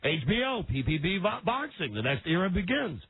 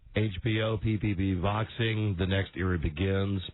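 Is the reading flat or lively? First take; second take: lively; flat. First: It is read with lively emotion. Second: It is read flatly, without emotion. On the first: The speaker calls it right. "Just put a little emotion into it" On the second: The speaker calls it wrong. "I could read this like this"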